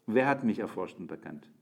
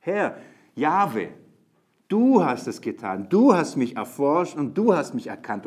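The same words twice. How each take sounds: First: Said in the usual way. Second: Herr and du hammered out loud and high; Herr, Jahwe called out, then du hast punched each time; stress on du. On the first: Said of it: "Ich versuche so zu betonen". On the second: Shown as a demonstration. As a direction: du stressed loudly on every clause. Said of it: "Das ist nämlich der Punkt".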